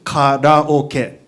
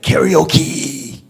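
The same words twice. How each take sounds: First: It is said with Japanese vowels and syllables. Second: It is said with an English-style pronunciation. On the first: The speaker calls it right. "karaoke is pronounced karaoke" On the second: The speaker calls it wrong. "people butcher it, right? It's like karaoke"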